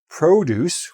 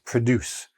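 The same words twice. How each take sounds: First: The stress is on the first syllable. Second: The stress is on the second syllable. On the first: It is the noun meaning fruits and vegetables. The speaker calls it right. "with the stress on the first syllable" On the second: It is the verb meaning to make something. The speaker calls it wrong. "this is not pronounced produce. Produce is a verb"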